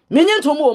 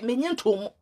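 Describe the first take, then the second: First: Loud and high, punching nyi; a sharp, raised repeat of the muttered line; shouted repeat. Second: Soft, muttered under the breath; a quiet aside before the outburst. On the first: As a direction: hurl the line back at full voice. Repeats phrase, now shouted. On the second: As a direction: pull the line down and away. Repeats phrase, first dropped low. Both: Real, not acted.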